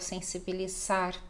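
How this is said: The z is pronounced as a voiceless s sound. This shows the influence of Spanish. "o som do Z vai ficar com som de S"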